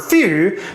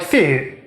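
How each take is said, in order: First: The vowel is a clear, ideal example. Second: The vowel is slightly off its ideal target. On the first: "like a really ideal fee or few" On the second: "a little off the mark"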